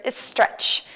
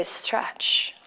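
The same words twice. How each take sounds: First: "stretch" with a Mexican accent. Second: Said in the usual way. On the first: Shown as a demonstration. Yoga teacher joking to the class about their own word, Mexican accent. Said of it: "My Mexican accent, can you hear it?". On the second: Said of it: "Sorry, I meant to say".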